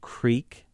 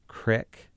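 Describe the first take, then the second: First: It is said with a standard, non-rural pronunciation. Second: It is said with a rural local pronunciation. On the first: "Instead of creek" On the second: "rural pronunciations that I would try"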